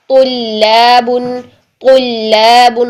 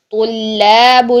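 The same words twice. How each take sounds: First: طلاب with a light, thin لام after a full-mouthed ط; thin lam. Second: طلاب with the لام said heavy and full-mouthed; wrong thick lam. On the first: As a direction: keep the لام in طلاب light, not thick. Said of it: "تو کر کے لام باریک". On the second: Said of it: "لام آپ کا موٹا نہیں ہونا چاہیے". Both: Shown as a demonstration.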